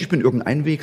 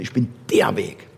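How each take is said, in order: First: Said in the usual way. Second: Der in Ich bin der Weg said low and firm, falling; stress on der. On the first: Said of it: "Er sagt also nicht". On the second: Shown as a demonstration. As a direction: settle down on der, lower.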